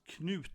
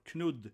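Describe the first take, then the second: First: The name is said with a Norwegian pronunciation. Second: The name is said with a Danish pronunciation. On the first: "Kanute is pronounced Knut" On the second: "or Knud in Danish"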